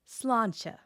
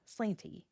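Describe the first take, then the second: First: It has the Irish long vowel and slender ending. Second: It has an anglicized vowel and ending. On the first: The speaker calls it right. "Put it together and you get sláinte" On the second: The speaker calls it wrong. "outsiders reliably say"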